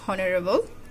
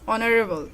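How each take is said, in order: First: The word begins with an h sound. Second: The word begins with a vowel sound. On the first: The speaker calls it wrong. "not honorable" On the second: The speaker calls it right. "The pronounced is like O"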